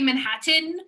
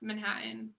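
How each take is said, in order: First: The middle T is clearly pronounced. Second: The middle T is dropped. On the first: "do people say Manhattan?" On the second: "I don't say the T's"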